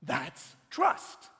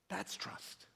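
First: That's trust. said loud, the word trust stretched and rising; punched refrain. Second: That's trust. breathed softly, almost whispered, with the stress on That's; hushed refrain. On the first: Preacher driving home his refrain to the congregation, loud and emphatic. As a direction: hit That's trust. hard and let trust ring upward. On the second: Preacher softly sealing the point to his listeners, whispered. Refrain after loud quote. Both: Acted.

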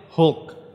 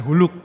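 First: Hulk in one syllable, said slowly; correct English Hulk. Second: Huluk in two syllables, rising at the end; Huluk, the typical Indonesian misreading; wrong Indonesian Huluk. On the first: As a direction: clip Hulk short, with no vowel slipped between l and k. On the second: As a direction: add a u so Hulk becomes Huluk. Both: Shown as a demonstration. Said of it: "ngajarin yang benar".

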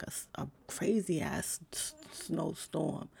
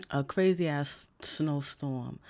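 First: Words catch in a rough throat, fading out; croaky, trailing off. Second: Clear restart. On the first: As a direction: voice snags and fades before throat clearing. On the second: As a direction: say it again clearly after clearing throat. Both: Real, not acted.

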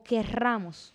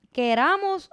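First: "querramos" slow, with a trilled rr; double R. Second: "queramos" with one tapped r, high and loud; single R. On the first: Host offers co-host second option, trilled "querramos". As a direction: roll the rr in "querramos". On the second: Host offers co-host first option, single-tap "queramos". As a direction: flick the r lightly in "queramos". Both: Shown as a demonstration. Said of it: "Con una sola R".

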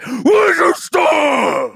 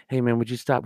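First: High, drawn-out scream imitating a snap; acted sudden outburst, stretching the words; explosive meltdown shout. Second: Said in the usual way. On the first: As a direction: blow up into a full-voiced, high-pitched yell. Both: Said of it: "it went literally".

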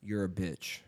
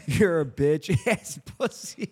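First: Low, soft deadpan jab; hushed hypothetical put-down; quiet test insult. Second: Cracking up mid-insult; slow mock insult broken by laughs; failed dead serious. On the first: Pretend. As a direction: say it low and under your breath, testing a friend. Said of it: "what if I was like". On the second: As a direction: try to say it seriously but break into laughter. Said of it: "like, dead ass serious".

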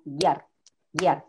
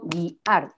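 First: "guiar" in one quick beat, punch on AR; one-syllable stress. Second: "guiar" broken in two, gui... ar; split syllables. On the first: Teacher demonstrates the voice stress of guiar, one-syllable stress. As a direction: run "guiar" together as gyAR, falling. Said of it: "por el golpe de voz". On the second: Teacher shows how guiar is not said, split syllables. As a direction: pull "guiar" slowly apart into GUI and AR. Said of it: "Yo no digo guiar". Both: Shown as a demonstration.

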